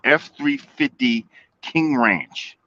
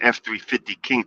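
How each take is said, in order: First: It is said slowly and deliberately. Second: It is said at normal speed.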